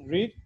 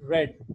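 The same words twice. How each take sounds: First: The word is said with its present-tense vowel. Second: The word is said with its past-tense vowel. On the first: The reading happens habitually now. "here you will pronounce read as read" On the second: The reading happened in the past. "Here you will have to pronounce it read"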